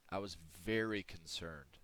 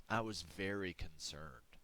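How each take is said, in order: First: "very" leaned on, the rest falling; "I was very concerned" with "very" dwelt on; stress on very. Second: Said in the usual way. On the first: Shown as a demonstration. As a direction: repeat it with weight on "very".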